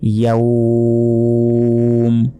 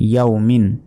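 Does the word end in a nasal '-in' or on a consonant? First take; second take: consonant; nasal ending. First: The word stops on a bare final consonant. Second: The word ends with a nasal '-in' ending. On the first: Reading stops at this word. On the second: Reading continues past this word.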